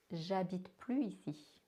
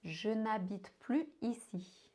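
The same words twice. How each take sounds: First: Casual "J'habite plus ici", no ne at all; ne dropped. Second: "Je n'habite plus ici" with the ne clearly said; careful form keeping "n'habite". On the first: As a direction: slide straight into "J'habite". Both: Shown as a demonstration. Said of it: "did you heard the difference".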